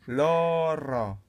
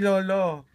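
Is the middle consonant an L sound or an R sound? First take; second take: R sound; L sound. First: The middle consonant is a rolled R sound. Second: The middle consonant is an L sound. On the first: The speaker calls it right. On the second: The speaker calls it wrong. "Hindi lolo"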